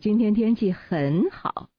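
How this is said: The word 很好 is stressed. The focus is on how good it is. "那重点就在这个很好了"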